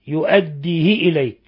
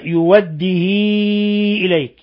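First: The h takes a short i vowel. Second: The vowel after the h is greatly lengthened. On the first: "حالة الوصل يؤديه إليك بكسر الهاء" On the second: "بحذف الهمزة وإشباع الهاء، يعني صلة الهاء صلة كبرى"

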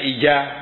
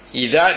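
First: The middle consonant is a j sound. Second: The middle consonant is not a j sound. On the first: The speaker calls it wrong. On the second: The speaker calls it right.

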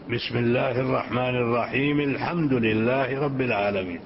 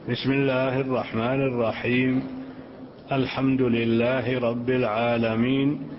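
First: الرحيم runs straight into الحمد. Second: There is a pause after الرحيم. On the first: The basmala is joined to the next verse. "وصل البسملة بقوله الحمد لله رب العالمين" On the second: The basmala is read as a separate verse. "حرفا حرفا"

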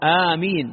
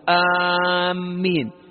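First: The m sound is short and light. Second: The m sound is doubled and held longer. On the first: It means O God, answer the prayer. The speaker calls it right. "لا آمين بتخفيف الميم" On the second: It means people heading toward a place. The speaker calls it wrong. "بعض الناس يقول آمين شد على الميم"

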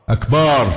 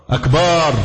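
No difference in how they are said.

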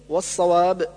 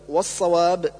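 Both takes have the same delivery.

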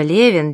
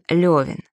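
First: The name is said with an 'e' vowel. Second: The name is said with a 'yo' vowel. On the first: A pharmacist in Odessa. "держит аптеку в Одессе" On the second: The Russian landowner hero of the novel. "его герой — русский помещик"

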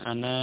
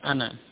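First: The final vowel is drawn out long. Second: The final vowel is cut short. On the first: The speaker calls it wrong. "Bukan ana, bukan. Tidak, itu keliru" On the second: The speaker calls it right. "Yang benar ana, pendek"

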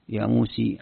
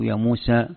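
First: The final vowel leans toward an e sound. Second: The final vowel is a plain open a. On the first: "الإمالة الكبرى مثلا يا موسي" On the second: "أو يا موسى"

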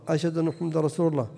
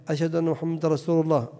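Both takes have the same delivery.

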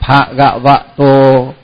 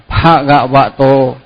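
Both takes have the same delivery.

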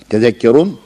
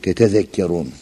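First: The word begins with one 'te' syllable. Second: The word begins with two 'te' syllables. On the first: One syllable is dropped to ease pronunciation. "Orada tefaulde muzari'nin tası hazfedilmiş" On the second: This is the full underlying verb form. "Aslında bu tetezekkerun"

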